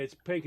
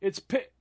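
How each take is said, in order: First: Said in the usual way. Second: The word "pi-" snapped off halfway; a touch louder, broken off after "pi-"; cut off mid-word. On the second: Retold or imitated. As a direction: start to say "pink" and stop short on "pi-". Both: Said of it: "she started to say".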